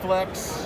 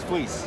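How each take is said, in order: First: It has a short e and ends in ks. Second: It has a long ee and ends in s. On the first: The speaker calls it wrong. "sometimes Flex" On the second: The speaker calls it right. "it's Fleece"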